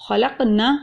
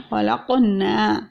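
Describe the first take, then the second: First: خلقنا with the نا clipped short and quick; خلقنا, rushed short na; wrong Khalaqna. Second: خلقنا with the نا drawn out one alif long; خلقنا, long final na; correct Khalaqna. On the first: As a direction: cut the نا of خلقنا off fast. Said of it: "نا پہ چھوڑ دیں گے جلدی سے". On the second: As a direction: stretch the نا in خلقنا slowly. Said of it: "اگر نون زبر الف نا ہم پڑھتے ہیں". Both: Shown as a demonstration.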